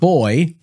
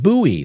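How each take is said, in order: First: The name is said as one syllable. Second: The name is said as two syllables. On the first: The speaker calls it wrong. "Not boy" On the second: The speaker calls it right. "That's how you pronounce it"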